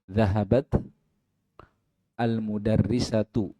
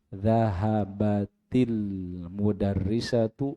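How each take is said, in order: First: The t ends without a vowel after it. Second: The t links onward with an i vowel. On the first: "Ta-nya sukun" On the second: "ta-nya yang sukun itu di harakati kasroh"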